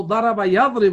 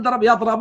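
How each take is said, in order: First: يضرب pronounced "yadribu"; kasra on the middle letter. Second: يضرب pronounced "yadrabu"; fatha on the middle letter. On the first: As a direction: give يضرب an i vowel, ya-dri-bu. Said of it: "مضارع بكسر العين". (نطق يضرب بكسر العين: يَضْرِبُ) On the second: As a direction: give يضرب an a vowel, ya-dra-bu. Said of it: "لا". (نطق يضرب بفتح العين: يَضْرَبُ) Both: Shown as a demonstration.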